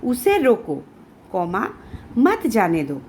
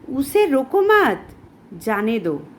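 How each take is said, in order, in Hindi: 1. विराम 'roko' के ठीक बाद आता है। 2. विराम 'mat' के ठीक बाद आता है।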